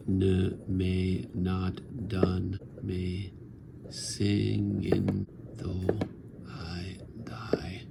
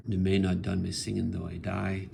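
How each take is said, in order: First: "Ne m'est not done me singing though" drawn out very slowly, "I die" whispered; very slow verse. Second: "Ne m'est not done", short pause, "me singing though I die"; caesura after done. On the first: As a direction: stretch every syllable, then let "I die" fade to a whisper. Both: Shown as a demonstration. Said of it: "There's the caesura".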